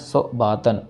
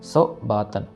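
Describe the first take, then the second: The two takes are said the same way.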